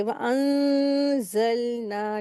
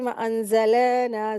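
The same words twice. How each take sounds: First: "वअंज़लना" very slow, long nasal hum, still l; correct recitation. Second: "वअंज़लना" with the l bounced, "an-za-le-naa"; mistaken qalqala. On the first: Teacher showing the right reading, slow ghunna and steady laam. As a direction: stretch "वअंज़लना", resting on the l without bouncing. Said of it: "ऐसे पढ़ेंगे". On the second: Teacher imitating a common mistake, bouncing laam. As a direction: flick an extra vowel after the l in "वअंज़लना". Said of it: "गलती ये लोग क्या करते हैं". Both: Shown as a demonstration.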